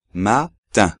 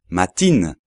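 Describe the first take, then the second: First: Matin slow, nasal vowel, no n; slow French matin with nasal ending; right matin. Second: Matin with a clear n at the end; wrong matin. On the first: Teacher models correct matin for students. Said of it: "sino matin". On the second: Teacher shows students the wrong matin. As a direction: matin said Spanish style, n pronounced. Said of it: "no hay que decir matin". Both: Shown as a demonstration.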